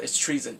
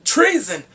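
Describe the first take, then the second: First: Said in the usual way. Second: Loud, high cry of disbelief; shouted outcry. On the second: Real, not acted. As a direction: blurt it out at full volume. Repeats the word in outcry.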